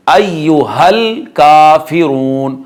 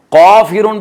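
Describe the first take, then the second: First: काफिरून slowly with thin k, long oo; light kaaf. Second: काफिरून with back, thick "qaw"; wrong heavy qaaf. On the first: Teacher modelling the correct letter, light kaaf. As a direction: recite अय्युहल काफिरून with a front k. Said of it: "बारीक काफ है". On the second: Teacher showing the mistake, wrong heavy qaaf. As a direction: darken the first sound of काफिरून to q. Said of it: "पढ़ेंगे तो गलत हो जाएगा". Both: Shown as a demonstration.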